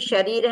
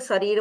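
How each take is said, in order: First: The word begins with an 'sh' sound. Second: The word begins with an 's' sound. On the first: The speaker calls it right. "जैसे शरीर है" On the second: The speaker calls it wrong. "कोई कोई लोग श को स बोलते हैं"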